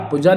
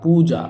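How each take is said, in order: First: पूजा with a short u, "puja"; short-vowel mistake. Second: पूजा with a long "poo"; correct long vowel. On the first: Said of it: "पूजा नहीं होता". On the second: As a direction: stretch the u in पूजा. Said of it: "क्या होता है". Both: Shown as a demonstration.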